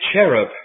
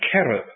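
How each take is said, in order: First: The word begins with a soft ch sound. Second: The word begins with a hard K sound. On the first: This is the softened English form. "we've merely softened the beginning of it" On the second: This is the original Hebrew form. "with a K"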